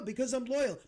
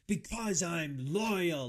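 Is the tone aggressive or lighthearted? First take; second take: lighthearted; aggressive. First: It is said in a light, casual tone. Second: It is said in an aggressive, intense tone. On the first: The answer comes across as easygoing and friendly. The speaker calls it right. "if he wants to say it in a lighthearted way" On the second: The answer comes across as creepy and confrontational. The speaker calls it wrong. "he's being like super aggressive with his answer"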